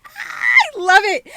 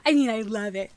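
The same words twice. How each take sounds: First: "I love it" squealed high and loud; excited. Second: Said in the usual way. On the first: Real, not acted. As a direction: burst out with "I love it".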